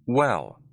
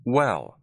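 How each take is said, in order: The two takes are said the same way.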